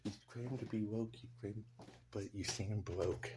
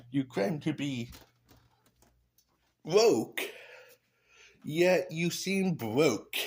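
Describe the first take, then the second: First: Much softer, almost under the breath; hushed repeat. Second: Louder, higher and slow, landing the insult; loud punchline. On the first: Repeating his own roast to himself, softly. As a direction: say it again quietly to yourself. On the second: Roasting the politician out loud, loud and slow. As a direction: belt it out like a roast line. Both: Pretend. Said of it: "Oh, sorry".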